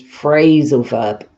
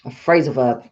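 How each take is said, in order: First: "phrasal" stressed and the tune falls through "verb"; intonation of phrasal verb. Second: "phrasal" stressed and the pitch falls on "verb"; intonation of phrasal verb. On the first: Teacher repeating the intonation of phrasal verb, falling. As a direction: lean on "phrasal" and drop the pitch on "verb". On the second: Teacher showing the class how phrasal verb is stressed, falling. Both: Shown as a demonstration. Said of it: "the intonation is phrasal verb".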